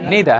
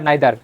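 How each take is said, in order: First: It begins with a 'nee' sound. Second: It begins with a 'nye' sound. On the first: The speaker calls it right. "উচ্চারণ কি ইদা, নিদা" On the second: The speaker calls it wrong. "আমরা কি বলতাম ... নাইদার"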